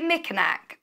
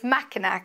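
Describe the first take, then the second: First: The first syllable has the vowel of 'mick'. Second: The first syllable has the vowel of 'mack'. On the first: The speaker calls it wrong. "sorry for pronouncing it wrong. Did I say Mickinac?" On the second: The speaker calls it right. "It's Mackinac, isn't it?"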